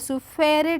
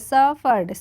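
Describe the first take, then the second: First: The word is said with three syllables. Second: The word is said with two syllables. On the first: The speaker calls it wrong. "सुफेरिड नहीं पढ़ेंगे" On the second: The speaker calls it right. "क्या पढ़ेंगे, सफर्ड"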